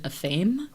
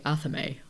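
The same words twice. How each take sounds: First: The word is said with two syllables. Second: The word is said with three syllables. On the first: The speaker calls it wrong. "growing up I always pronounced it" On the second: The speaker calls it right. "something more like Athame. At least something three syllables"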